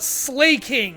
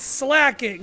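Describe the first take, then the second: First: The first syllable sounds like 'slay'. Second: The first syllable sounds like 'slack'. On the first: The speaker calls it wrong. "It's not slaking" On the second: The speaker calls it right. "it's slacking"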